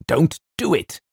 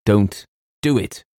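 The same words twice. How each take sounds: First: High, urgent protest; vehement cry. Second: Slow, emphatic protest; vehement plea. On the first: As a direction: cry it out higher, in desperate protest. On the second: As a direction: forbid it with weight on each word. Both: A narrator's reading. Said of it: "cried James with extraordinary vehemence".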